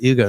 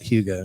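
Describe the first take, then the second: First: The name starts with a vowel, no h sound. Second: The name starts with an h sound. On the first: The speaker calls it right. "Ugo's name is pronounced Ugo" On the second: The speaker calls it wrong. "not Hugo"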